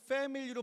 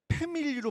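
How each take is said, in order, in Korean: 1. 이 단어는 f 소리로 시작해요. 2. 이 단어는 p 소리로 시작해요. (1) "F를 패밀리로 발음해야 되는데" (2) "패밀리로 발음을 해야 돼요. 애들 사이에서"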